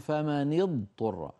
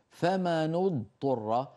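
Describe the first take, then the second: First: The nun is followed by a different vowel. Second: The nun is followed by a u vowel. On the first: This is another recognised reading tradition. "اللي بيقرأ برواية حفص بيقولوا" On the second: This is one recognised reading tradition. "ورش بيقرأها بضم النون"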